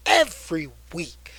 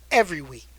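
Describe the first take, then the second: First: Whispered echo. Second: Said in the usual way. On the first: Shown as a demonstration. Echoing himself to viewers, whispered. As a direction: whisper it, breathy and secret.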